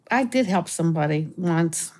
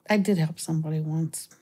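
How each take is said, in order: First: Said in the usual way. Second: Breathy whispered repeat of the line. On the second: Shown as a demonstration. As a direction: drop to a secret whisper. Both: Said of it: "repeats the line whispered".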